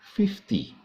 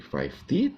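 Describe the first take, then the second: First: The first syllable sounds like 'fif'. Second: The first syllable sounds like 'five'. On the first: The speaker calls it right. "Padahal seharusnya mengalami perubahan" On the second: The speaker calls it wrong. "Karena terpengaruh dengan pengucapan angka lima yaitu five"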